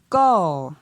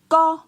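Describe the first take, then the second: First: The syllable is said on a falling tone. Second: The syllable is said on a high tone. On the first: "Et pour un ton descendant" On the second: "Pour un ton haut"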